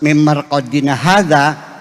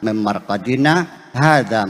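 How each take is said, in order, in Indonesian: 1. Kata-katanya menyambung tanpa jeda. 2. Ada henti singkat tanpa napas sebelum 'hadza'. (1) "Kalau dibacanya langsung" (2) "Sakta itu berhenti tapi tidak bernafas. Jadi bacanya"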